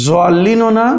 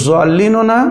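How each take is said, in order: The two takes are said the same way.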